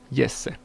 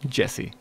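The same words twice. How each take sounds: First: The name is pronounced the Finnish way. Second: The name is pronounced the English way.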